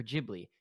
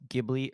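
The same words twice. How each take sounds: First: Ghibli with a soft G, like a J; soft-G pronunciation. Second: Ghibli with a hard G as in "give"; hard-G pronunciation. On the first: Host offering listeners the other option, soft-G Ghibli. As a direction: start Ghibli with a J sound. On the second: Host polling listeners on pronunciation, hard-G Ghibli. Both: Shown as a demonstration. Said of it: "if it's pronounced Ghibli or Ghibli".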